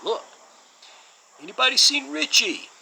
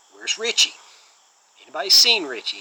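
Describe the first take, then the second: First: Hammed-up New York accent, much higher and louder; failed impression, yelling out in a high-pitched New York voice; Steven Seagal. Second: Imitated New York accent, louder and pitched up; lightly put-on New York tough-guy demand; Steven Seagal. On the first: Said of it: "and I can't do it". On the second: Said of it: "he says it in this cool New York accent".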